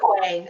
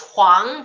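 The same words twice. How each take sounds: First: The name is pronounced the anglicized, English way. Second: The name is pronounced the original, non-English way. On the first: This is the everyday pronunciation used when speaking English. "I just say Huang. I mean, I'm speaking English" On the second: This is the technically correct pronunciation. "it's Huang"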